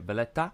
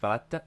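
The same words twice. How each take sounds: First: The T is said with a softer sound. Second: The T is said with a harder sound. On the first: The speaker calls it right. "if you say it in a Maltese accent, the T is often a bit softer" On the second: The speaker calls it wrong. "I think it's Valletta. Oh, sorry"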